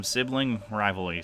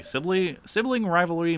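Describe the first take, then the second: First: Said in the usual way. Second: High-pitched, incredulous repeat; scoffing sibling, pitched way up; indignant echo. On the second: Acted. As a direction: throw the excuse back in a much higher voice.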